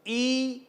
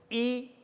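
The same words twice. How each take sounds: First: "ई" held as a long ee; long ee vowel. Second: "ई" said short as a brief i; short i vowel. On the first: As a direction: stretch "ई" out. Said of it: "समय ज्यादा लगा". ("ई" का दीर्घ उच्चारण) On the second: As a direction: keep "ई" quick. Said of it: "समय कम लगा". ("ई" का ह्रस्व उच्चारण) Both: Shown as a demonstration.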